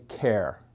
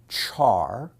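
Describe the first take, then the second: First: It starts with a k sound, rhyming with care. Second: It starts with a ch sound, rhyming with car. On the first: "some people say care" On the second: "Some people pronounce it char"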